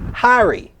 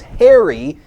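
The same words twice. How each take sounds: First: The first vowel sounds like car. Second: The first vowel is not like car.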